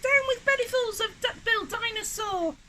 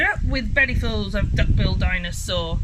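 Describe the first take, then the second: First: Very high-pitched creature chant; hooting. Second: Loud, full-voiced chant; group war cry. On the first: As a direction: hoot it like a little dinosaur. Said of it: "and he hooted". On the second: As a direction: shout it out as a rallying slogan. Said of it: "and they shouted". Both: A narrator's reading.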